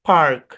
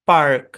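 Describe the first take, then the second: First: American accent, the r sound is pronounced. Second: American accent, the r sound is pronounced.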